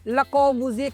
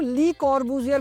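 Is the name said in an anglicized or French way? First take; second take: French; anglicized. First: It starts with 'luh' and ends without an r. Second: It starts with 'lee' and ends with an r. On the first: It follows the name's original language. "ले कॉर्बूजिए कहना ही correct pronunciation होगा" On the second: It is a simplified reading of the name. "काफी लोग ली कॉर्बूजियर भी पढ़ते हैं"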